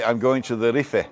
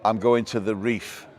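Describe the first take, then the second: First: "Rife" said in two syllables, REE-feh; "Rife" Spanish-style, ree-feh; island's own pronunciation. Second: "reef" as one English syllable; "reef" with no vowel after the f; English pronunciation. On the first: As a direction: sound the final vowel in "Rife", like the end of Tenerife in Spanish. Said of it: "So you would actually say". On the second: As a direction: say "reef" the English way, rhyming with beef. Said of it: "the English pronunciation of the island". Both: Shown as a demonstration.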